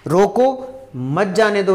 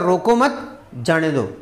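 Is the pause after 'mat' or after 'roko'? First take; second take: after roko; after mat. First: The pause comes right after the first word. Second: The pause comes right after the second word. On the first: Stop him; do not let him go. "उसको जाने मत दो, इसका मतलब ये हो गया" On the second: Do not stop him; let him go. "इसका मतलब हो गया रोको मत जाने दो"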